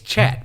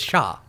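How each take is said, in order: First: The word is said with English pronunciation. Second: The word is said with French pronunciation. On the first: "if you're gonna pronounce it like English, it's chat" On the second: "if you're gonna pronounce it like French, it's Sha"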